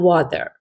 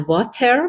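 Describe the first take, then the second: First: The middle consonant sounds like a d. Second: The middle consonant is a clear t sound. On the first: "صدای تی توی آمریکایی تلفظ به دی تبدیل میشه" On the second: "به جای اینکه بگن"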